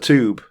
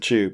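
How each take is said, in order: First: It is said with an American pronunciation. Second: It is said with a British pronunciation. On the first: The speaker calls it wrong. "my American friend who keeps saying" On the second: The speaker calls it right. "I have to correct it to tube"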